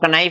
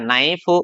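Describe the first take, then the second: First: The K is sounded at the start. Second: The K is silent at the start. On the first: The speaker calls it wrong. "इसको कनाइफ नहीं बोला" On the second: The speaker calls it right. "इनका सही उच्चारण"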